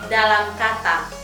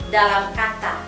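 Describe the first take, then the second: The two takes are said the same way.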